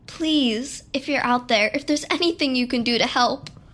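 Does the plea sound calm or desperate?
calm. The plea sounds fairly calm and restrained.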